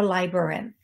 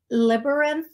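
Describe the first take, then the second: First: Labyrinth as the alternative first syllable; second option. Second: Libyrinth with "Lib" up front, pitched higher; first option. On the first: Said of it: "not sure which way it goes". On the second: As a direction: try out "Libyrinth", unsure, higher voice. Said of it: "it's either Lib". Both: Shown as a demonstration.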